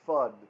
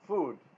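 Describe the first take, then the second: First: The vowel is a short 'uh' sound. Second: The vowel is a long 'oo' sound. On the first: "Uh can be a short uh" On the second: "oftentimes ooh also food"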